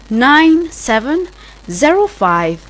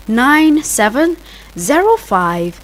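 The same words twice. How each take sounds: The two takes are said the same way.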